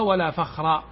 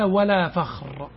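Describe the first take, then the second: First: The last word ends with an 'a' vowel. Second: The last word ends with a 'u' vowel.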